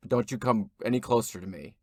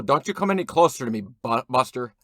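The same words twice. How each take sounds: First: Said in the usual way. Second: Louder, fast and rushed threat; loud warning. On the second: Acted. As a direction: snap the warning out faster and louder. Repeated warning to stranger.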